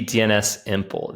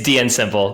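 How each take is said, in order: First: The letter S is spoken separately before Simple. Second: The S merges into Simple, no separate letter. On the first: "it could be D N S Simple" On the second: "it's D N Simple"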